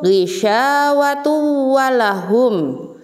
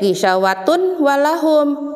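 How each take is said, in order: First: The n merges nasally into the w. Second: A clear n is pronounced before the w. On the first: The speaker calls it right. "idgham bi gunnah" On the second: The speaker calls it wrong. "tidak boleh"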